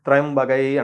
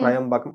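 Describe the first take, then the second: First: The word ends with a 'gai' sound. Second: The word ends with a 'kam' sound. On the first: The speaker calls it right. "త్రయంబగై అంటారు దాన్ని" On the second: The speaker calls it wrong.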